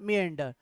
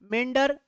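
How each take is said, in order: First: The first vowel glides from 'ee' into 'uh'. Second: The first vowel is a single 'eh' sound. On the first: "दोनों ही sound करने ही पड़ेंगे आपको, तो यहां पर बनेगा मियंडर" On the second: "दूसरा मेंडर ए वाला"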